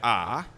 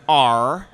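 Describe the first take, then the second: First: "R" as an open "ah", no r sound; Aussie R. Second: "R" loud, long and hard-rhotic; effortful American R. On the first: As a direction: drop the r in "R", just "ah". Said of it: "Instead of R". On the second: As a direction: put real effort into the r of "R". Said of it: "really gotta put the effort into the R". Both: Shown as a demonstration.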